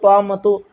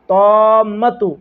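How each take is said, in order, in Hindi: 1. m ध्वनि छोटी और एकल है। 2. m ध्वनि दोहरी है और देर तक खिंची हुई है। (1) "इसको तौमतु नहीं पढ़ेंगे" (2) "मीम के ऊपर भी तजदीद है, इसलिए इसको भी दो बार पढ़ेंगे"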